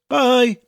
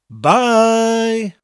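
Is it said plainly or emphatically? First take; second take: plainly; emphatically. First: It is said plainly, without emphasis. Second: It is said with strong emphasis.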